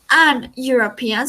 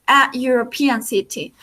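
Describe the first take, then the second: First: An European, said as a wrong example; an European, the form we do not say. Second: A European city, said as the correct form; right form a European city. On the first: Teacher giving the wrong form an European. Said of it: "no decimos". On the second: Teacher giving the correct form a European city. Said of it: "sino que decimos". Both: Shown as a demonstration.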